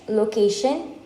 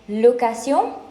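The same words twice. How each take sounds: First: The word is pronounced with English sounds. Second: The word is pronounced with French sounds. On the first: Where some place is. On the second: A rental of something.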